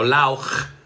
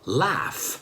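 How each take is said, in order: First: The word ends in a harsh ch sound. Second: The word ends in a soft f sound. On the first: The speaker calls it wrong. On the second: The speaker calls it right.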